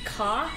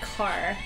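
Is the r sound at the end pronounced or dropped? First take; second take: dropped; pronounced. First: The final r sound is dropped. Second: The final r sound is pronounced. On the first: "Boston accent has hard. Like, we say ka" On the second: "instead of car"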